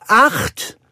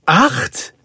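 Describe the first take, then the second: First: High, loud, falling call; excited announcement. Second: High, rising echo question; astonished. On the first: Nanny calls out the puppy count. (aufgeregt verkündend) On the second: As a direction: repeat it in amazed disbelief. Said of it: "wiederholte Roger erstaunt". (erstaunt nachfragend) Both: A narrator's reading.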